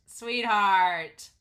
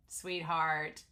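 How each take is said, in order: First: Loud, insistent SWEETHEART; emphatic repeat. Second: Said in the usual way. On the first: Real, not acted. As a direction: call out "Sweetheart" much louder, voice falling at the end. Repeated louder, fond exasperation.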